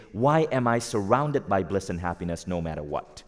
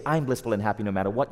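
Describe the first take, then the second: First: Said in the usual way. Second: Quick, tossed-off affirmation; declaration, not question. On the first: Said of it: "You say". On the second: Shown as a demonstration. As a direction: rattle it off as a flat statement of fact. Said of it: "you don't say".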